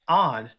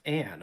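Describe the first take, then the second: First: The vowel sounds like the one in 'on'. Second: The vowel sounds like the one in 'an'. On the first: The speaker calls it right. "But on" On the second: The speaker calls it wrong. "not an"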